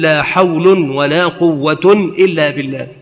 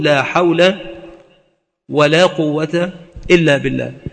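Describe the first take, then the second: First: Both nouns end with a nunated 'un' ending. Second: Both nouns end with a short 'a' vowel. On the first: Both negations are cancelled and the nouns are nominative. "إلغاء المكررتين ورفع ما بعدهما" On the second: Both negations govern their nouns; this is the basic form. "إعمال المكررتين وبناء اسميهما على الفتح وهو الأصل"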